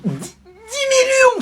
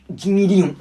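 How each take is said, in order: First: Pitched far higher and drawn out slowly; dreamy, high, slow "dix millions"; greedy awe. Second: Said in the usual way. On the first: Acted. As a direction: savour the sum like a dream. Greedy repeat.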